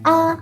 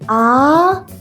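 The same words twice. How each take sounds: First: The pitch stays high and level. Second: The pitch rises like a question. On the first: "keep it high and flat" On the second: "Raise your voice like a question"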